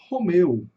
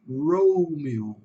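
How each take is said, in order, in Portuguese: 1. O nome é dito com pronúncia em português. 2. O nome é dito com pronúncia em inglês. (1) "nós falamos Romeu" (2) "Em inglês eles vão falar Romeo"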